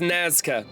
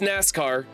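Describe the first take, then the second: First: It ends with an open vowel, no 'r' sound. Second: It ends with an 'r' sound, like 'NASCAR'. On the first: The speaker calls it right. "I think it's Nazca" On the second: The speaker calls it wrong. "I want to call this NASCAR"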